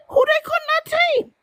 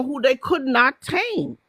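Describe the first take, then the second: First: Much higher and quicker; high emphatic repeat. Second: Said in the usual way. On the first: Real, not acted.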